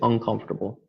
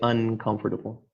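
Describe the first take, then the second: First: The first syllable ends with an 'ng' sound. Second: The first syllable ends with an 'n' sound. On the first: The speech is fast. "in fast speech, virtually every speaker will say" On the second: The speech is very careful. "in the most careful speech you would say"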